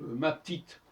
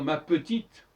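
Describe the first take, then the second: First: The first vowel of petite is dropped. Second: The first vowel of petite is kept. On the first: "par exemple ma petite" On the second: "au lieu de dire ma petite"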